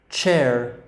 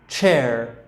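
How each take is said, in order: The two takes are said the same way.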